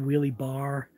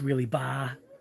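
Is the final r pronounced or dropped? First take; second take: pronounced; dropped. First: The final r is clearly pronounced. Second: The final r is dropped, Massachusetts style.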